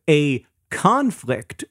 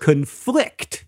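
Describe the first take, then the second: First: "conflict" as CON-flict, slow and deliberate; noun stress. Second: "conflict" as con-FLICT, deliberately; verb stress. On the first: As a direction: stress the first syllable of "conflict". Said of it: "the noun has the stress on the first". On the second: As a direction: stress the second syllable of "conflict". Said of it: "verb has the stress on the second". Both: Shown as a demonstration.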